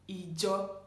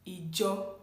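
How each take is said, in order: First: The word begins with an 'ee' vowel. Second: The same.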